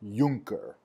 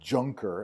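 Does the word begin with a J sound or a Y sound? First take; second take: Y sound; J sound. First: It begins with an English Y sound. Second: It begins with a hard English J sound. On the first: The speaker calls it right. "the letter J is pronounced like our Ys" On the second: The speaker calls it wrong. "this word is not pronounced Junker"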